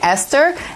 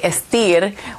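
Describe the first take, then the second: First: It is said like the English name Esther. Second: It is said with a Spanish reading, Estir. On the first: This is how the owner meant the name to sound. "it sounds like Esther" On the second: This is how Spanish-speaking clients say it. "they say Estir"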